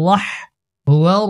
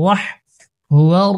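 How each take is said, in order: No difference in how they are said.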